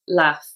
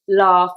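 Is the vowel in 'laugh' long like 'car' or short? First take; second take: short; long. First: The vowel is short and flat. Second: The vowel is long, like in car.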